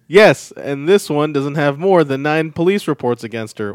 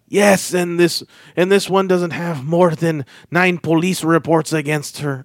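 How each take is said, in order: First: It is read in a normal man's voice. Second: It is read in a put-on voice.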